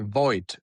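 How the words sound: The name is said with an English pronunciation. "in English, you say"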